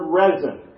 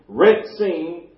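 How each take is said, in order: First: The middle consonant is a plain s sound. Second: The middle consonant is a ts sound. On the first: The speaker calls it wrong. "Some pronounce the word resin" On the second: The speaker calls it right. "Actual Hebrew pronunciation"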